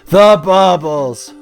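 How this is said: It is said in a put-on cartoon character voice.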